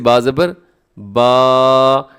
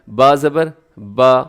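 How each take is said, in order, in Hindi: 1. आख़िरी स्वर लंबा खिंचा हुआ है। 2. आख़िरी स्वर छोटा और सहज है। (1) "ऐसे इसको लंबा करना दुरुस्त नहीं है" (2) "बस इतना"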